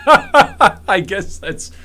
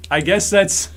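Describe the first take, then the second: First: Slow, stretched words through a laugh; giggling over the words, higher. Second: Said in the usual way. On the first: Real, not acted. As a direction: laugh your way through I guess that's. Laughs through the repeated phrase.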